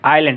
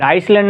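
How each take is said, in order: First: The word is said with no s sound. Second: The word is said with an s sound. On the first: The speaker calls it right. "ये आइलैंड S यहाँ पे silent होगा" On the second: The speaker calls it wrong. "आइसलैंड नहीं"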